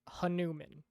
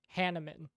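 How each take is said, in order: First: The name ends sounding like the word 'human'. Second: The name ends not sounding like 'human'. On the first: The speaker calls it wrong. "I'm technically pronouncing it wrong by pronouncing it this way" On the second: The speaker calls it right. "the correct pronunciation is"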